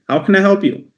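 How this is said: It is said in a lively, energetic, excited voice. The caller is welcomed and engaged. The speaker calls it right. "A lot more professional, a lot more, uh, you know, ecstatic. Energy is good"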